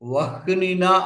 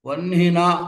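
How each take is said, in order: First: The h sound comes before the n. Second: The h sound comes after the n. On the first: The speaker calls it wrong. "అనక్కర్లేదు" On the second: The speaker calls it right. "అనాలి"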